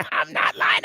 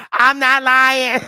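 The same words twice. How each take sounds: First: Breathy whisper, words barely voiced; whispered insistence. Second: Loud laughing, pushing the words out through the laughter; laughing insistence. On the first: Repeats the claim under his breath. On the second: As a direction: laugh it out, insisting it's true. Insists while laughing hard. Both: Real, not acted.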